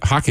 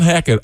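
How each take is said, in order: First: "Hockett" with an open O, as in hot; quick fix of the name, first syllable of "Hockett" like "hock"; corrected surname. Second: "Hackett" with a short A, as in hat; mispronounced surname. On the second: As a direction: say "Hackett" with the vowel of "hack". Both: Real, not acted. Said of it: "Hockett, excuse me".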